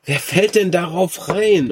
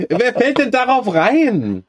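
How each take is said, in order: First: Laughing disbelief. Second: Incredulous. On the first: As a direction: say it through laughter. Repeats it laughing. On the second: Incredulous laughing reaction. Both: Real, not acted.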